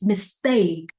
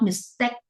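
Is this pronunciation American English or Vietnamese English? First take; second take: American; Vietnamese. First: The vowel in 'take' sounds like the letter A. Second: The vowel in 'take' does not sound like A. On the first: The speaker calls it right. "American English or, or accurate English, we pronounce it mistake" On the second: The speaker calls it wrong. "Vietnamese English, they pronounce it mistake"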